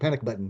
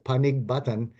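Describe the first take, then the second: First: The first word ends with a K sound. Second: The first word ends with a G sound. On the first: This is the nickname. "if you you know make that G a C" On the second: This is the real family name. "That is exactly almost how it's pronounced"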